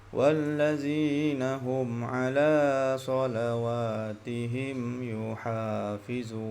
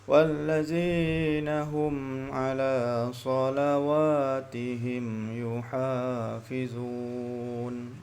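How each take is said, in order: Both takes have the same delivery.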